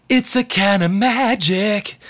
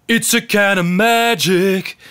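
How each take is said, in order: First: Feminine seventies tone. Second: Macho chest voice. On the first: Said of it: "you wouldn't hear that tone early in the seventies". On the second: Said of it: "macho, manly, deep in the chest". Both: Retold or imitated.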